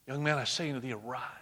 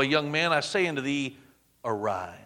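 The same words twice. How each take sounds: First: Soft, hushed call to rise; hushed command. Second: Said in the usual way. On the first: Acted. Jesus softly speaks to the dead son, hushed.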